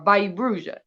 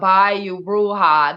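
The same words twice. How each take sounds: First: The phrase is said quickly and clipped. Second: The phrase is said slowly and drawn out. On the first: This is how genuine locals say it. The speaker calls it right. "they say it real quick" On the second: This is how an outsider pretending to be local says it. The speaker calls it wrong. "It's not long drawn out Bayou Bruja"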